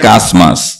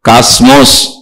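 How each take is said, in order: First: The second syllable has an 'a' vowel. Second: The second syllable has an 'o' vowel. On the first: "కొంతమంది కాస్మాస్ అంటం విన్నాను" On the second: "కొంతమంది కాస్మోస్ అంటం విన్నాను"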